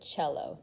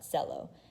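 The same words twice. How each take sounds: First: The word is pronounced the Italian way. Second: The word is pronounced a non-Italian way. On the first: The speaker calls it right. "that's how you pronounce it" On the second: The speaker calls it wrong. "not cello"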